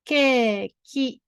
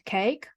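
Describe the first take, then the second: First: It is said with a Japanese pronunciation. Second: It is said with an English pronunciation. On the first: "In Japanese pronunciation is ケーキ" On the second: "in English cake"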